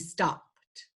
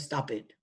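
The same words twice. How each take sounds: First: The ending is a voiceless t sound. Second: The ending is an extra id syllable. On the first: The speaker calls it right. "t is voiceless. So by rule, stop in the past tense would be stopped" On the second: The speaker calls it wrong. "or stopped"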